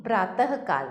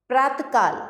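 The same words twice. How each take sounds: First: Said in the usual way. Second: प्रातःकाल as praat-kaal; प्रातःकाल with t straight into k; missing visarga. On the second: Shown as a demonstration. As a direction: drop the breathed h from प्रातःकाल. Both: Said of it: "नहीं, प्रातःकाल".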